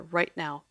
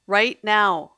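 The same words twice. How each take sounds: First: Said in the usual way. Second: Screaming. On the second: Acted. Lily screams at the maestro to flee. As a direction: yell it to get him out the door now. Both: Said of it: "she screamed".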